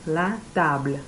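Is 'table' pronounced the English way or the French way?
French. The word table sounds like French. The speaker calls it right. "It's the same word in French, but la table"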